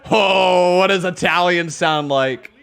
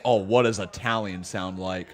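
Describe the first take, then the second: First: Loud, eager question; excited outburst. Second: Said in the usual way. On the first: Real, not acted. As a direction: burst out with sudden enthusiasm.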